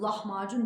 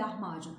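First: The l sound is thick and backed. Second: The l sound is thin and fronted. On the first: The speaker calls it wrong. "lahmacun değil" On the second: The speaker calls it right. "doğrusu lahmacun. İnce söylüyoruz"

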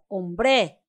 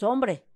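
First: The stress is on the last syllable. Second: The stress is on the first syllable. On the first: The speaker calls it wrong. "ahora sería hombre" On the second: The speaker calls it right. "Ya no es hombre"

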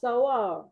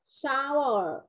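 First: The sh sound and ow vowel are blurred. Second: The sh sound and ow vowel are clear. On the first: The speaker calls it wrong. "Con đọc là shower" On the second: The speaker calls it right. "Làm rõ âm sờ móc và nguyên âm áo ngủ nhá"

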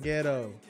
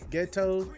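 First: It is said as the English word ghetto. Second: It is said as the name Geto. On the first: It refers to a poor neighborhood. The speaker calls it wrong. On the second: It names a character. The speaker calls it right.

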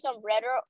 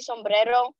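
First: The word is said with an English accent. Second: The word is said with a Mexican Spanish accent. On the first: "I'm Mexican, so I don't say sombrero" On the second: "we say sombrero in Mexico"

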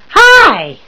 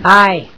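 First: It is said with more enthusiasm. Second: It is said flatly, without much enthusiasm.

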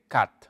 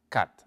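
No difference in how they are said.

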